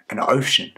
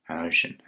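First: OCEAN cried out louder and higher; awed exclamation. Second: Said in the usual way. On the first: Acted. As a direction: marvel aloud, punching "ocean". Repeats it, marvelling at the sea.

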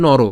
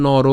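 First: Said in the usual way. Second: নর with a lengthened final "ro"; teacher stretching নর at the end; drawn-out pronunciation. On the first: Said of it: "এটা তো normally নর". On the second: Shown as a demonstration. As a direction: hold the last vowel of নর, "noroo". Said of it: "But অ যদি উচ্চারণ হবে".

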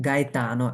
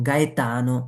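Both takes have the same delivery.

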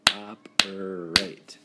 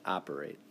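First: "Operate" slowly, syllable by syllable: op-er-ate; slow, split into syllables. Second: Said in the usual way. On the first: Shown as a demonstration. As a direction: clap out each syllable of "Operate". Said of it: "Three syllables". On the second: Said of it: "the first thing I like to do is syllables".

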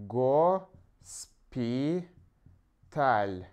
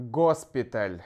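First: "госпиталь" split slowly as go - spi - tal, with long gaps; slow broken-up "госпиталь" for writing down; syllable by syllable. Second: Said in the usual way. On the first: Shown as a demonstration. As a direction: dictate "госпиталь" one syllable at a time. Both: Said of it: "you also can put here".

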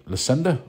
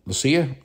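First: Lucinda said loo-SIN-da with a questioning rise; Lucinda, trying it out. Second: Lucia said LOO-see-a with a questioning rise; Lucia, trying it out. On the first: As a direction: try the name Lucinda, rising, higher. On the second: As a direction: try the name Lucia, rising, higher. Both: Shown as a demonstration. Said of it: "Is it Lucinda or Lucia?".

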